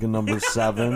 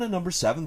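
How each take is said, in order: First: The voice is flat and monotone, with little energy. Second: The voice is livelier, with more energy than before.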